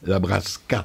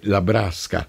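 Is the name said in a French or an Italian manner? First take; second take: French; Italian. First: The name is said in a French way. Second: The name is said in an Italian way. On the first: The name sounds Polish. The speaker calls it wrong. "quand ils l'entendent à la française" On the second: The name is Italian. The speaker calls it right. "comme ça se prononce à l'italienne"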